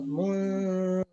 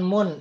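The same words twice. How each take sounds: First: The n is hidden with a held nasal hum. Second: The n is pronounced clearly and fully. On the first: The speaker calls it right. "Hampir dekat ke uh, huruf selanjutnya. Tapi nggak nempel" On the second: The speaker calls it wrong. "Bukan mun. Kalau mun itu jadi jelas"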